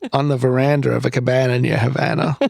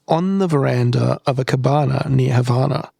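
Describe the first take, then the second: First: It is said in an American accent. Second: It is said in an Australian accent. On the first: "It's a really bad American accent" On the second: "Not with an Aussie accent"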